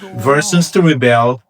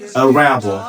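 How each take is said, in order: First: The stress is on the second syllable. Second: The stress is on the first syllable.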